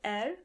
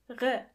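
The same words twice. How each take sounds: First: The R sounds like an English R. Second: The R sounds like a German R. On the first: The speaker calls it wrong. "the letter R is not pronounced as R" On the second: The speaker calls it right. "but more like R"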